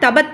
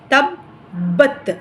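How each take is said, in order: First: The middle consonant is short and single. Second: The middle consonant is doubled and pressed. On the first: The speaker calls it wrong. "அது தப்பா போயிரும்" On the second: The speaker calls it right. "அழுத்தணும்"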